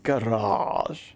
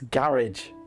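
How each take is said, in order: First: The word is said in a posh accent. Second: The word is said in an ordinary accent. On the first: The speaker calls it wrong. "Not garage" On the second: The speaker calls it right. "Nah, it's garage"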